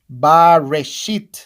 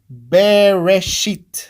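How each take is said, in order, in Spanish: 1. La primera sílaba tiene una 'a' plena. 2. La primera sílaba tiene una 'e' breve. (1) "Y se leería así" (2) "Y se lee Bereshit. Así, su lectura correcta es"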